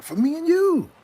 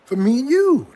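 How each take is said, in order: First: Very high sing-song croon. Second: High, loud sing-song. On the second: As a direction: croon it like a greeting card. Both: Pretend. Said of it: "That's how they even make it sound".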